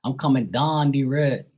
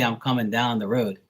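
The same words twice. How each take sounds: First: Higher Bermudian accent, "down" as "dahn". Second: Said in the usual way. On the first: Shown as a demonstration. Contrasting local speech with standard, strong Bermudian accent. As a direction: say "road" as "reed", Bermudian style. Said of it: "a lot of people here, they talk". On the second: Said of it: "They don't say".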